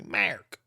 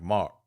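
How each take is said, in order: First: "Mark" higher with a hard drawn R; Buffalo hard R. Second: Said in the usual way. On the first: Shown as a demonstration. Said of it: "I'ma start saying Mark like that". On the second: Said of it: "That's how we say it".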